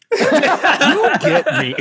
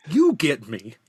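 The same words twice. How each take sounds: First: YOU drawn out slow, higher and louder with a laugh; laughing slow-motion emphasis; emphatic, laughing. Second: Said in the usual way. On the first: Real, not acted. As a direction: savor each word of "You get me", grinning. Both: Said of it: "I wanna say".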